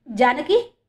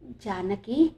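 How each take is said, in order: First: Louder, rising exclamation; loud cry. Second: Halting, drawn-out name with rising end; syllable by syllable. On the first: Father sees his lost daughter, loud cry. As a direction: call the name out in astonishment. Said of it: "అంటూ గట్టిగా అరిచాడు". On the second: Bhaskar cannot believe his eyes, syllable by syllable. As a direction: piece the name together in disbelief. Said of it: "ఒక్కో అక్షరం కూడబలుక్కుంటూ". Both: A narrator's reading.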